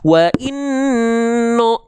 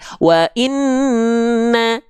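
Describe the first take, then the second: First: The final vowel is dark, like O. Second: The final vowel is light, like A. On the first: The speaker calls it wrong. "dia nggak dibaca wa inno" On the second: The speaker calls it right. "tapi wa inna, dibaca dengan vokal A"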